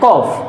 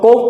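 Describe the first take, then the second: First: The vowel is an open 'aw' sound. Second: The vowel is an 'oh' sound. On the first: "correct pronunciation इसकी होती है कॉफ" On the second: "कुछ को उसको कोफ पढ़ते हैं"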